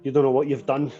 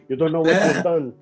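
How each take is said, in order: First: It is said in a natural voice. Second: It is said in a put-on accent.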